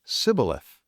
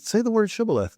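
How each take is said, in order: First: Sibboleth with a plain s instead of sh; s sound for sh in Sibboleth; mispronounced shibboleth. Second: Shibboleth with a clear sh; sharp sh at the start of shibboleth; correct sh. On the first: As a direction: say Sibboleth, s not sh. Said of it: "could not frame to pronounce it right". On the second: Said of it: "when he tried to say sh". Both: Retold or imitated.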